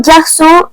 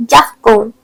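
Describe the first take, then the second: First: Garçon said "gar-son", S in the middle; correct soft C. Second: Garçon said "gar-kon", K for the ç; hard C mispronunciation. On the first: Teacher shows accented word, garçon said with S. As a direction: give garçon its soft S sound. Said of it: "it is important to put an accent". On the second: Teacher warns learners, garçon wrongly said with K. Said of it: "otherwise it will sound like". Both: Shown as a demonstration.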